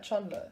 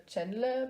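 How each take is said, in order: First: Chonle with an open O in the first syllable; O-sound pronunciation. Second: Chenle with a short E in the first syllable; E-sound pronunciation. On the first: Fan explaining a member's name, Chonle said with an O sound. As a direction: say Chonle with "chon" rhyming with "John". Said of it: "so like an O". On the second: Fan showing the rejected version, Chenle said with a short E. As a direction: say Chenle with "chen" rhyming with "pen". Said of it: "you don't pronounce". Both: Shown as a demonstration.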